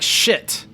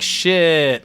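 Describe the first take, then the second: First: It sounds dismayed and annoyed. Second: It sounds impressed and approving. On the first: Something bad just happened. "that's like you just you're late for your bus, or you drop something" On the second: Something is cool. "like yeah"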